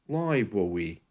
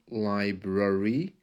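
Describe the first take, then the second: First: The R sound turns into a W. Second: The R sound is soft and weak. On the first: "changing the R into a W" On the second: "One with a soft R"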